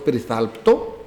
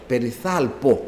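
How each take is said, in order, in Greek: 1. Ανάμεσα στο π και στο φωνήεν ακούγεται ήχος τ. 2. Το π ακολουθείται απευθείας από το τελικό φωνήεν. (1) "Είναι λάθος και το περιθάλπτο" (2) "περιθάλπω, όχι περιθάλπτο"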